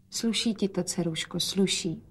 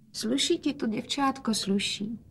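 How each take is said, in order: First: Soft, weak and tender; weak praise. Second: Softer, higher tender quiet; quietly. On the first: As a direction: praise her gently, frail. Sick father praises daughter. (nemocný otec chválí dceru slabě) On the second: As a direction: say it gently, quietly. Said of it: "hovořil otec tiše". (otec tiše chválí dceru) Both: A narrator's reading.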